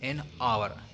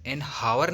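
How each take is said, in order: First: The word begins with a vowel, no h. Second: The word begins with an audible h sound. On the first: The speaker calls it right. "An आवर अ अ sound करता है" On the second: The speaker calls it wrong. "एन हावर नहीं करेंगे"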